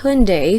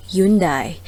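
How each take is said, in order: First: Hyundai said "HUN-day"; standard pronunciation. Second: Hyundai said "YUN-dai"; Philippine pronunciation. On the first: Presenter naming today's car brand, Hyundai said "HUN-day". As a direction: say Hyundai as two syllables, "HUN-day", ending in an "ay" sound. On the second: Presenter showing the Philippine pronunciation, Hyundai said "YUN-dai". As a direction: say Hyundai with a "yoon" start and a "dye" ending. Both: Shown as a demonstration. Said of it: "or the Philippine pronunciation".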